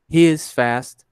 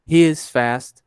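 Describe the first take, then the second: First: The pronoun and verb are said as separate words. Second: The pronoun and verb are said as separate words.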